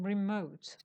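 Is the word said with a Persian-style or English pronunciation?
English. The word is said with an English pronunciation. The speaker calls it right.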